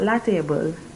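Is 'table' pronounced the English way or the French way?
English. The word table sounds like English. The speaker calls it wrong. "Not la table"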